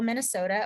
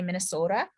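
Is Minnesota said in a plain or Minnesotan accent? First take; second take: plain; Minnesotan. First: It is said in the speaker's plain accent. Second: It is said in Mary Ann's Minnesotan accent.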